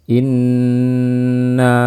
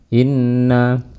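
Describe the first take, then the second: First: The nasal hum on the double n is long. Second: The nasal hum on the double n is short. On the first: The speaker calls it right. "dengan gunnah yang panjang" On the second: The speaker calls it wrong. "Jangan inna"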